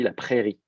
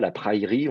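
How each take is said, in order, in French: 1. La voyelle est un seul son e simple. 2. La voyelle est une diphtongue avec une glissante y. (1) "on dit ... une contraction de la diphtongue" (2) "on dit pas"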